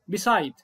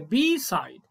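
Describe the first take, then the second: First: The first vowel is short. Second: The first vowel is long. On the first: The speaker calls it wrong. "في واحد ممكن نطق الكلمه يقول ايه مثلا بي سايد" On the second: The speaker calls it right. "لا هي بي سايد، بي لازم اطول الايه الاي"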